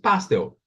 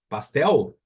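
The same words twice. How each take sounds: First: The stress is on the first syllable. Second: The stress is on the last syllable. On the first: The speaker calls it wrong. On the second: The speaker calls it right.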